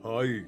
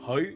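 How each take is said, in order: First: The pitch falls on the greeting. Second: The pitch rises on the greeting. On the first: "the downturn" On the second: "the upturn"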